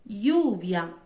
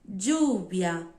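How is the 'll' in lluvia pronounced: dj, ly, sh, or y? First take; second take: y; dj. First: The ll sounds like a y sound. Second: The ll sounds like a dj sound. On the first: "Som de I" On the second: "E som de D"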